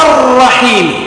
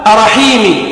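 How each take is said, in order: First: Long rolled double R in الرحيم; shadda on the ra. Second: Single short R in أرحيمي; missing shadda. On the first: Teacher corrects it, doubled R in الرحيم. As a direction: hit and hold the R of الرحيم, higher. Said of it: "هذه الشدة الرابعة". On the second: Teacher shows the wrong reading, undoubled R in أرحيمي. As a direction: say أرحيمي without doubling the R. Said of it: "لا". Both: Shown as a demonstration.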